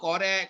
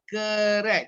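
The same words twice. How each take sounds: First: The first vowel is a full vowel. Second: The first vowel is a weak schwa. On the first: The speaker calls it wrong. "Itu yang biasa tu ... salah" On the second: The speaker calls it right. "Sebutannya adalah correct. Tu E terbalik tu"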